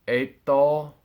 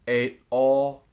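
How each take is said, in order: The two takes are said the same way.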